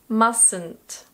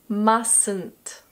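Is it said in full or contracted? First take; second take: contracted; contracted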